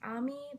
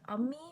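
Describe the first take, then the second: First: The word begins with an open 'ah' vowel. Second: The word begins with a short 'uh' vowel. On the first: The speaker calls it wrong. "is not pronounced ami" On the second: The speaker calls it right. "but ummi"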